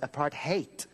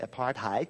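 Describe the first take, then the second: First: The ending sounds like the word 'hate'. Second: The ending does not sound like 'hate'. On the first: The speaker calls it right. "Like the word apart plus the word hate" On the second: The speaker calls it wrong. "It's not like Americans say apartheid"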